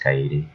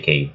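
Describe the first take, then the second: First: The name is said as three syllables. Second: The name is said as one syllable. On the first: The speaker calls it right. "when it's Kaede" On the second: The speaker calls it wrong. "saying it as Cade"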